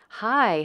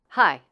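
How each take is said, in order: First: The pitch is high and moves up and down. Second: The pitch is short and moves downward. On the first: It sounds feminine. "Feminine intonation is generally higher, longer, and moves around more" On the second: It sounds masculine. "A more masculine intonation is shorter and moves downward"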